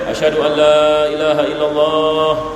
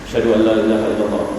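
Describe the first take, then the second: First: The phrase is said loudly, with a raised voice. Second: The phrase is said quietly, in a low voice. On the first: This is the audible recitation after the silent one. "dia naikkan suaranya" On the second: This is the silent first recitation before the loud one. "Dia baca dengan senyap"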